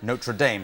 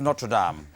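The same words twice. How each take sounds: First: It is said with an American pronunciation. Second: It is said with a non-American pronunciation.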